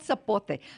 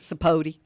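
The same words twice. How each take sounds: First: The word is said with a Spanish-style pronunciation. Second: The word is said with an anglicized English pronunciation. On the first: This is what the fruit is really called. "but it's called sapote" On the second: This is how someone else says it.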